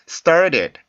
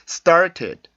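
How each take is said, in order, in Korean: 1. 가운데 t는 빠르게 튀기는 플랩입니다. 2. 가운데 t는 또렷하고 분명한 t 소리입니다. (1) "플랫 발음이요" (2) "과거 단어는"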